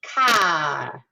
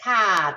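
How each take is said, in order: First: Car with a loud, very bright ah. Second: Car again with a bright, loud open ah. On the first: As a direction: push car to a bright open ah. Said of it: "we don't necessarily go as bright as". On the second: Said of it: "that ah bright". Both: Shown as a demonstration.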